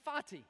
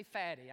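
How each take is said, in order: First: "Fatih" said clearly as a name, falling at the end; careful name pronunciation. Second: "Fatty" said like the English word for plump; mistaken name pronunciation. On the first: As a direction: pronounce "Fatih" firmly, not as "Fatty". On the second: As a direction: say "Fatty" as the misheard version of the name. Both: Shown as a demonstration. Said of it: "I didn't say Fatty".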